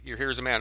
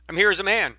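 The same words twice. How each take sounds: First: Skeptical judge echo. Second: A man declaring himself loudly and high in court; emphatic courtroom claim. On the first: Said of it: "I'm gonna play the judge here". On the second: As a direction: proclaim it to the judge, higher and louder. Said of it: "if you say it like that". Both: Retold or imitated.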